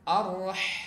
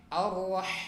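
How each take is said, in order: First: The h is a smooth breath from the throat. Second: The same.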